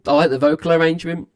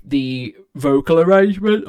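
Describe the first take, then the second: First: Said in the usual way. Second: Words stretched out by a yawn. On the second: Real, not acted. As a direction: say it mid-yawn. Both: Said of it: "I keep yawning".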